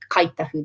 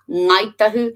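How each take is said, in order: First: It begins with the southern k sound. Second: It begins with the northern ng sound.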